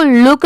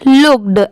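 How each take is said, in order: First: लुक ending on k; लुक as the bare verb; without final d. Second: लुक्ड with a clear d after the k; teacher's careful look-d for लुक्ड; final d sounded. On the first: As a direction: leave the d off लुक. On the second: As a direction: finish लुक्ड on an audible d. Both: Shown as a demonstration. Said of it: "सिर्फ इसको लुक नहीं पढ़ेंगे".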